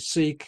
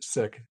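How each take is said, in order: First: It sounds like the word seek. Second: It sounds like the word sick. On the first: This is the form people usually hear. The speaker calls it wrong. "are used to hearing seek" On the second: This is how the community says it. The speaker calls it right. "in fact, it's sick"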